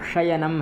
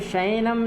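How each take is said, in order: First: The 'ya' sound is clearly pronounced. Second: The 'ya' sound is dropped or blurred. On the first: The speaker calls it right. "या का भी उच्चारण करना है" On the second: The speaker calls it wrong. "शयनम नहीं है ये"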